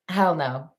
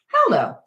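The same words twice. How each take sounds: First: It is said flatly, without enthusiasm. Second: It is said with lively enthusiasm.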